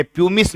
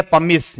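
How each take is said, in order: First: "प्यूमिस" opening with "प्यू"; long "यू" sound. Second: "पमिस" opening with a short "प", as in but; short-vowel U. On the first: Teacher showing students the wrong reading of pumice, long U. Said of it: "ये प्यूमिस नहीं है". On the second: Teacher showing students how to read pumice, short U. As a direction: say "पमिस", with no "यू" sound. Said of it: "यू का उच्चारण ए". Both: Shown as a demonstration.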